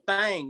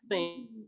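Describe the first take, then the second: First: The word is said with an 'ah' vowel. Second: The word is said with an 'ih' vowel. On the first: The speaker calls it right. "It's called Thing, T H A N G" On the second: The speaker calls it wrong. "not Thing"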